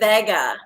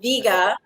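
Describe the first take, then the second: First: The first syllable sounds like the old car name. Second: The first syllable sounds like 'vee' in vegan. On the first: "like the nineteen seventies car" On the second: "like vegan"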